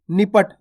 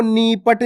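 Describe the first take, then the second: First: निपट with a short, quick first i; quick निपट, first vowel kept brief. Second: नीपट with the first ee stretched long; wrongly slow, long-vowelled नीपट; drawn-out long vowel. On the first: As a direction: say निपट briskly, no stretch on नि. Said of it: "यानी कि जल्दी से उच्चारण कर देना". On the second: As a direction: hold the नी in नीपट. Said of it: "आपको नीपट नहीं पढ़ना". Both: Shown as a demonstration.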